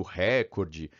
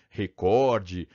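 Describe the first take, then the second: First: "recorde" stressed on the first syllable, RÉ-cor-de; silabada on recorde. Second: "recorde" with stress on the middle syllable, re-COR-de. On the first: Teacher recalls the word people get wrong, "recorde" as RÉcorde. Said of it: "falei da silabada e falei do recorde". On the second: Teacher corrects the silabada, "recorde" as reCORde. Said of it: "falei da silabada". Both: Shown as a demonstration.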